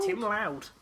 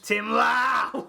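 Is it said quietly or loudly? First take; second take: quietly; loudly. First: It is said at a normal, quieter volume. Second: It is said very loudly.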